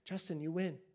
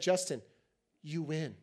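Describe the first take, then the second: First: It is said in a soft, sweet tone. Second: It is said in a harsh, cutting tone. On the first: "She may even be really sweet" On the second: "And she didn't say it like that"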